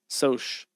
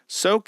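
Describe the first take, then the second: First: The word ends with a 'ch' sound. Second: The word ends with a 'k' sound. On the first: The speaker calls it wrong. "That's stupid" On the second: The speaker calls it right. "that's how it comes to me to pronounce"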